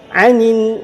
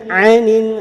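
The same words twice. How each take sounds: Both takes have the same delivery.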